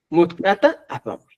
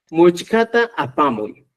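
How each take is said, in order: First: "Muchcata" said with t instead of ch; t variant. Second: "Muchcata" with ch before k; ch variant. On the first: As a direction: say "Muchcata" as mut-ka-ta. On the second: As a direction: say "Muchcata" as much-ka-ta. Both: Shown as a demonstration. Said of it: "La correcta es mutca o muchca".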